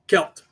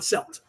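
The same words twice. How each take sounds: First: The word begins with a hard K sound. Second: The word begins with a soft S sound. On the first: The speaker calls it right. "pronounce that word Celt" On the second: The speaker calls it wrong. "not Celt"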